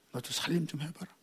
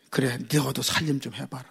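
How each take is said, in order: First: Barely voiced, much softer wifely coaxing; softer still. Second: Soft, coaxing wifely answer; gentle wife's reply. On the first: Wife repeating her gentle reply, near whisper. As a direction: let it fall almost to a breath. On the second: Retold or imitated. Wife gently answering a complaining child, soft. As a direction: say it softly, a wife calming her husband. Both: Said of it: "여자에다가 니은을 해가지고".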